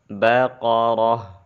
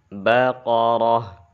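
The two takes are said the same way.

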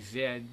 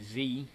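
First: It is said as zed, the European way. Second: It is said as zee, the American way.

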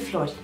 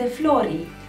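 First: The final i vowel is short. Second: The final i vowel is long. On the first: The speaker calls it wrong. "nu este flori" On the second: The speaker calls it right. "acel I pare un I lung"

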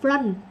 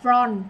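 First: The vowel is a short, open 'uh' sound. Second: The vowel is a rounder 'o' sound. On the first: The speaker calls it right. "mà là front, ớ mà ớ" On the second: The speaker calls it wrong. "không phải front"

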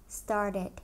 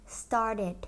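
The two takes are said the same way.

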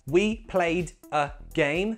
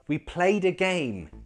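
First: The D sound is said separately from the next word. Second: The D sound is linked into the next word. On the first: The speaker calls it wrong. "Fine, but sounds a bit robotic" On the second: The speaker calls it right. "let's make it sound natural and make that D sound link into that next word"

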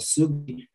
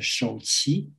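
First: The name is read the Korean way. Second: The name is read the Chinese way. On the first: "the Korean monk I mentioned called Sugi" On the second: "the Chinese will pronounce as Shouqi"

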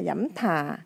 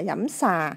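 First: The second word begins with an aspirated th sound. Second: The second word begins with an s sound. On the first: "hay là dẫm thà" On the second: "chứ không phải là dẫm xà"

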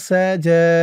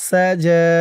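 The two takes are said the same way.

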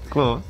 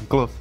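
No difference in how they are said.

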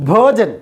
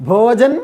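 No difference in how they are said.

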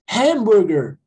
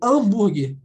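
First: The word starts with a breathy H sound. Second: The word starts with a vowel, no H sound. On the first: This is how it is said in English. "Parece que tem um R no lugar do H" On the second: This is how it is said in Portuguese. "como se começasse com A. Eu não falo, não pronuncio o H"

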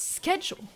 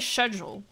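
First: The word begins with a 'sk' sound. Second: The word begins with a 'sh' sound. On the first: The speaker calls it right. "no, it's schedule" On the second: The speaker calls it wrong. "You don't say schedule, it doesn't sound good"

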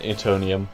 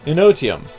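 First: The t sound comes before the n sound. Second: The n sound comes before the t sound. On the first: The speaker calls it wrong. "it just sort of went Etonium" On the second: The speaker calls it right. "it's Enotium"

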